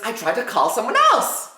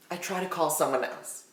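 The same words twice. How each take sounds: First: Said in the usual way. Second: Much softer, dropped for suspense; low-key, very quiet storytelling aside; hushed repeat. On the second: Real, not acted. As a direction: drop right down to a hush.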